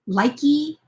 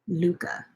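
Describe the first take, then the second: First: The first vowel sounds like 'eye'. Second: The first vowel sounds like 'oo'. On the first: The speaker calls it wrong. "I know a lot of people pronounce it like likey" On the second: The speaker calls it right. "it's pronounced Luca"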